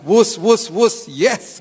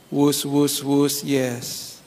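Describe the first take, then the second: First: It sounds cheerful and willing, not forced. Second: It sounds sad and forced, like reluctant speech.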